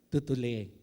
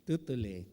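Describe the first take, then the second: The two takes are said the same way.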